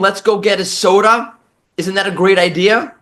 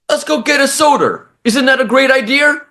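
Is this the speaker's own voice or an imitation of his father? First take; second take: own voice; father imitation. First: It is said in the speaker's own voice. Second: It imitates his father's thick New York voice.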